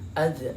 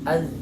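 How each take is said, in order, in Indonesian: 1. Huruf z terakhir dilepas dengan dipantulkan. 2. Huruf z terakhir berhenti dengan bersih tanpa dipantulkan. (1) "Jangan az" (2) "tapi az"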